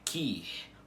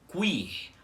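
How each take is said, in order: First: The u is silent, with no w sound. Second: A w sound comes before the i. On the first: The speaker calls it wrong. "com o u mudo" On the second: The speaker calls it right. "com o u pronunciado antes do i com acento"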